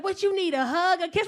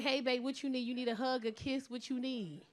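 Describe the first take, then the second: First: High, loud offer of comfort; imitated boyfriend mid-argument. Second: Soft caring request, trailing softer; gentle offer demo. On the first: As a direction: imitate him offering affection over an argument. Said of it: "We be arguing. He be like". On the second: Shown as a demonstration. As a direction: model how he should comfort you. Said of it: "Just be like".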